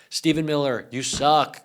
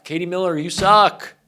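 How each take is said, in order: First: Said in the usual way. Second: Higher, louder jab, hitting "suck"; exasperated outburst. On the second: Real, not acted. Ranting directly at Katie Miller, exasperated and loud. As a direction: throw the insult out harder. Second insult escalates the rant.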